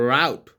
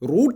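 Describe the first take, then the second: First: The vowel sounds like 'ow' as in out. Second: The vowel sounds like 'oo' as in boot. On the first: The speaker calls it right. "It's റൗട്ട്. പറയും standard ആയിട്ട് പറയണം" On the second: The speaker calls it wrong. "റൂട്ട് അല്ലടാ"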